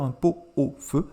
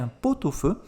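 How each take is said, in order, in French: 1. Le t de pot est muet devant au. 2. Le t de pot se lie à au. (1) "On ne peut pas dire un pot au feu" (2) "vous devez faire la liaison"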